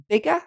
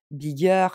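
First: BIGGER stressed on BIG, ending in a very short "uh"; short final schwa. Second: BIGGER with a full French "eur" ending; French-style -er. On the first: Teacher modelling the right ending, BIGGER as "BIG-uh". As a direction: punch the first syllable of BIGGER, barely sound the -er, no R. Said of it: "c'est un son E et il est très court". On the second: Teacher showing learners the mistake to avoid, BIGGER with a French "-eur". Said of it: "Je dis pas bigger". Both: Shown as a demonstration.

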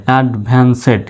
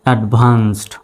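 First: "অ্যাডভান্সেড" split as ad-van-sed; wrong pronunciation. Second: "অ্যাডভান্সড" as ad-vanst, two syllables; correct pronunciation. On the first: Teacher showing learners the wrong spelling-based reading, mispronounced "অ্যাডভান্সেড" ending in "sed". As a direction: say "অ্যাডভান্সেড" with a full "sed" syllable at the end. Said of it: "উচ্চারণটা এরকম নয়". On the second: Teacher modelling the correct reading for learners, "অ্যাডভান্সড" joined as ad-vanst. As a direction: say "অ্যাডভান্সড" with no vowel between s and final stop. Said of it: "শেষে ডিটা দিলে কি হবে".

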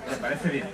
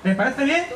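First: Soft echo. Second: Prompting question. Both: Acted. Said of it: "tienes que decir guau".

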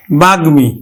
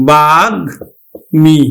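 First: Said in the usual way. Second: বাগ্মী stretched very slowly, গ and ম apart; careful slow model of বাগ্মী; slow teaching demo. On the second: Shown as a demonstration. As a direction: spell out বাগ্মী slowly with your voice. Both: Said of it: "আমরা উচ্চারণ করবো কিন্তু".

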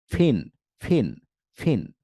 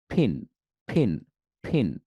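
First: ফিন with teeth on lip, a light breath; light-air f. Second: ফিন from both lips with a lot of air; puffed ph. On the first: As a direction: ease ফিন out with only a little air. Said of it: "হালকা বাতাস". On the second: Teacher showing the strong-air ফিন to learners. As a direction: push ফিন out hard between both lips. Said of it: "বেশি বাতাস বের হচ্ছে". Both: Shown as a demonstration.

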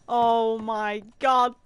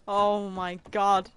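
No difference in how they are said.

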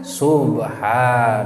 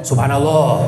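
First: "Subhanallah" very slow, low and level; correct dhikr intonation. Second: "subhanallah" said quicker and firmer, as an alert; low "subhanallah" in one short announcing run; notifying intonation. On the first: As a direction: draw out every syllable of "Subhanallah". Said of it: "Kuduna kumaha?". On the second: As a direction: call out "subhanallah" to notify the imam. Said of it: "mana teh mah ngabejaan". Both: Shown as a demonstration.

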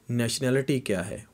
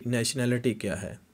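The two takes are said the same way.

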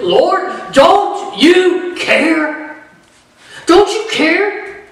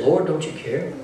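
First: High, slow, drawn-out plea to the Lord; pleading grieving sister. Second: Soft, low, inward version of the plea; quiet hurt question. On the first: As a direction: stretch each word like a hurt accusation. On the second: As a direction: say it softly, as the real hurt underneath. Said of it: "what they were really saying when they said this". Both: Retold or imitated.

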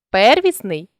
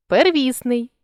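First: Первісний with ПЕР stressed; stress on first syllable. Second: Первісний with ВІС stressed; stress on middle syllable. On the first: Teacher shows a stress variant, первісний stressed on ПЕР. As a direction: punch the opening ПЕР of первісний. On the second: Teacher shows a stress variant, первісний stressed on ВІС. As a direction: lean on ВІС inside первісний. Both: Shown as a demonstration. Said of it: "наголосивши той чи інший склад".

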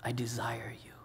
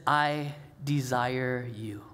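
First: The same words, much softer, almost breathed; Jesus hushed. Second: Slow, softer and lower as Jesus; Jesus tender. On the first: Jesus repeating his desire to his friends, hushed. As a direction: let it sink to a hush. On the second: Jesus telling his friends he desires them, slow and tender. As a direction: say it slowly, like a confession of love. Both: Retold or imitated. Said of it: "It's when Jesus says".

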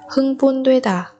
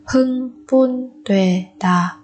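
First: Said in the usual way. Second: Slow Hưng Bun Tuệ Đà in separate beats; syllable by syllable. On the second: Shown as a demonstration. Teacher splits word by syllable. (đọc chậm Hưng Bun Tuệ Đà từng âm tiết)

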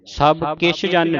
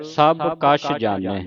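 First: Quick ਕਿਛ with a short "i" added; wrong reading. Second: ਕਛ with a short "a", no "i"; correct reading. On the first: Teacher shows what not to read, wrong reading. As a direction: say ਕਿਛ as "kichh". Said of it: "ਨਹੀਂ ਪੜ੍ਹਨਾ". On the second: Teacher models the line for the class, correct reading. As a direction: say ਕਛ as "kachh". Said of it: "ਸਭ ਕਿਛ ਜਾਣੈ ਨਹੀਂ ਪੜ੍ਹਨਾ". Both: Shown as a demonstration.

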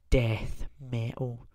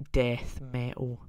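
Both takes have the same delivery.

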